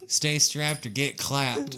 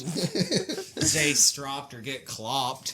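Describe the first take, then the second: First: Said in the usual way. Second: Slow Stay stropped or get clopped with round aw vowels; slow punning remake of the slogan; horsey pun. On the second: Pretend. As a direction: drag out stropped and clopped like hoofbeats.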